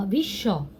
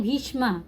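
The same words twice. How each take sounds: First: "भीष्म" as bhish-sho, no m; Bengali silent m. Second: "भीष्मा" as bheesh-maa, m sounded; Hindi reading. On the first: Teacher gives learners Bengali reading, "भीष्म" said bhish-sho. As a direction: double the sh in "भीष्म", end on o. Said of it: "यहाँ बंगला में पढ़ेंगे". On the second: Teacher recalls the Hindi reading, "भीष्मा" with audible m. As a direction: end "भीष्मा" on m and long aa. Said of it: "Hindi में लेकिन पढ़ते हैं भीष्मा". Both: Shown as a demonstration.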